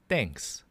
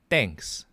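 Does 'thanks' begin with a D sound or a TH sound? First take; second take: D sound; D sound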